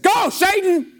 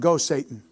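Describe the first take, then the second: First: It is said forcefully, like an exclamation. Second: It is said calmly, without force.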